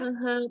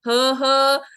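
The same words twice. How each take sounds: First: It is said in a warm, gentle tone. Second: It is said in a harsh, fierce tone.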